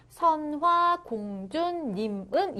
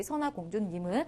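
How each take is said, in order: First: 선화공주님은 stretched slowly, syllable by syllable; drawn-out reading. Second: Said in the usual way. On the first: Shown as a demonstration. Teacher shows how it was read, 선화공주님은 slowly drawn out. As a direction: draw out each syllable of 선화공주님은. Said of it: "이렇게 읽었다라는 거죠". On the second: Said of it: "이렇게 해독해 주시면".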